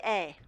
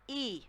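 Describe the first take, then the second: First: The vowel does not sound like English 'ee'. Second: The vowel sounds like English 'ee'. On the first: The speaker calls it wrong. "We don't say E" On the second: The speaker calls it right. "we say E. So this sounds just like an English E"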